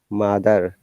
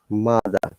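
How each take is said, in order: First: The final R sound is clearly pronounced. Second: The final R sound is left out. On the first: This is the American way. "you must pronounce it" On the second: This is the British way. "we never pronounce it"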